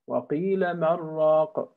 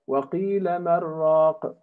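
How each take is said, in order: No difference in how they are said.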